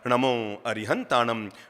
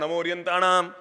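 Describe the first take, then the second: First: It is said slowly with every sound clear. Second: It is said hurriedly with slurred sounds. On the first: The mantra is recited with correct pronunciation. The speaker calls it right. "धीरज से कर लो जाप" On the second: People rush to finish first. The speaker calls it wrong. "होड़ लगी रहती है, पहले किसने बोला"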